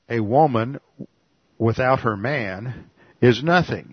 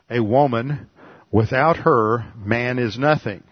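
First: The pause comes right after the word 'man'. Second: The pause comes right after the word 'her'. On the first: A woman is nothing without her man. "In this case, woman is the subject" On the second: Man is nothing without the woman. "That makes man the subject of the verb is and has one meaning"

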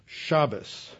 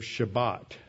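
First: The word ends with an s sound. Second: The word ends with a t sound. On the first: This is the Eastern European Yiddish form. "they will say Shabbos instead of Shabbat" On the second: This is the Hebrew form. "ending with a T"

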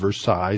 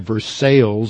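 First: The name is said the educated way. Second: The name is said the local way. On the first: The speaker calls it right. "instead of Versailles" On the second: The speaker calls it wrong. "they also have Versailles up there"

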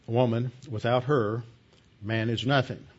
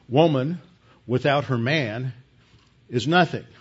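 First: There is a pause after her. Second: There is a pause after man.

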